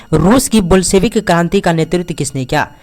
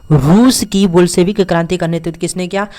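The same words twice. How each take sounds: No difference in how they are said.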